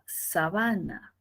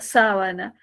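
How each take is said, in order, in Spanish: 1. El acento recae en una sílaba posterior. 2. El acento recae en la primera sílaba. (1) "si es que el acento se mueve" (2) "la primera es la sílaba tónica"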